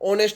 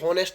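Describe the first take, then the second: First: The word begins with a vowel sound. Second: The word begins with an h sound. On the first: The speaker calls it right. "इसका सिर्फ ऑनेस्ट होगा" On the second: The speaker calls it wrong. "बहुत से ऐसे use करते हैं कि हॉनेस्ट"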